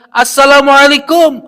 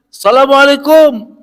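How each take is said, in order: First: It is said louder still. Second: It is said a little louder.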